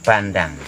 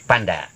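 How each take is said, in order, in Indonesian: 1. Kata ini berakhir dengan bunyi ng. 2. Kata ini tidak berakhir dengan bunyi ng. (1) "Kalau Manggarai sebenarnya pandang" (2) "Lidah Bima"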